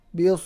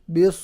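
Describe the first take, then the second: No difference in how they are said.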